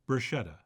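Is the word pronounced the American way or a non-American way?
American. It is pronounced the American way.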